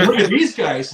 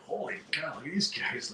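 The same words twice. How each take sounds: First: Louder, laughing and mocking. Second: Much softer, hushed awe; whisper-quiet, impressed by the band; awed hush. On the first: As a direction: laugh it out at the sloppy band. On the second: Retold or imitated. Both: Opening band awed by them.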